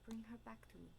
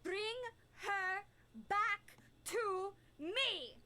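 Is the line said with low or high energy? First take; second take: low; high. First: It is said with restrained, lower energy. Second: It is said with strong, high energy.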